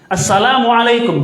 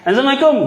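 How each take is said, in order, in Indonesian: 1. Setiap suku kata salam itu diucapkan dengan jelas. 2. Suku kata salam itu menyatu dan tidak jelas. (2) "nggak jelas kan?"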